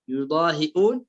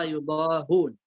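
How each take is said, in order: First: يضاهئون with a glottal stop; hamza sounded in يضاهئون. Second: يضاهون without a glottal stop; hamza dropped in يضاهون. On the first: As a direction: articulate the hamza after the hi in يضاهئون. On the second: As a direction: run ha straight into long u in يضاهون. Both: Shown as a demonstration. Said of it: "حذف الهمزة".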